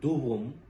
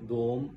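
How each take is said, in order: First: It is said as two syllables, both with u. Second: It is said as one syllable with an o. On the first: The speaker calls it right. "दाल और वाव दोनों पे पेश है" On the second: The speaker calls it wrong. "जो कि गलत है"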